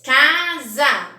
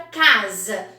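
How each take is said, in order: First: "Casa" loudly as ca... za, both vowels full; two even beats on "Casa": ca, za; split into syllables. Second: Said in the usual way. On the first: Shown as a demonstration. Teacher counting syllables for pupils, "Casa" split as ca... za. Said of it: "Quantas sílabas?". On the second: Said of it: "Tem a palavra casa".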